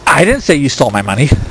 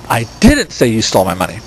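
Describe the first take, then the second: First: The stress is on "I". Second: The stress is on "didn't".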